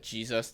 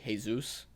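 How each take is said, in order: First: The word begins with a J sound. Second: The word begins with an H sound. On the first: "instead of saying uh" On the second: "J sounds like an H"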